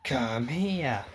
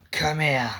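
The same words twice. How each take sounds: First: Softer, tearful call; crying plea. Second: Said in the usual way. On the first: Acted. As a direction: beg him to come, crying. Calling the possessed friend.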